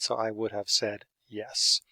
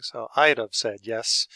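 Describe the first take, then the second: First: Said in the usual way. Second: "I'd have" said as one short blurred unit, like "I'd-uv"; reduced I'd have. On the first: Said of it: "That's the equivalent of". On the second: Shown as a demonstration. Teacher showing students how it sounds in talk, reduced "I'd have". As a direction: run "I'd have" together as in casual speech. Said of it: "the way it sounds when we're talking".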